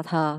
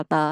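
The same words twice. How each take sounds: First: "thờ" with air released on the T; aspirated T. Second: "tờ" without aspiration; wrong plain T. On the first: Teacher giving the rule for initial T, aspirated. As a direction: puff the start of "thờ". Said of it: "đọc là thờ không à". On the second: Teacher warning about word-initial T, unaspirated. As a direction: keep the T of "tờ" airless. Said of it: "không bao giờ đọc là tờ". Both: Shown as a demonstration.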